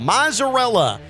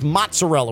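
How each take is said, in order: First: The middle consonant is a plain z sound. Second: The middle consonant is a ts sound. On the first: "Theo's going with mozzarella" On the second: "the American way... is mozzarella with a T in there"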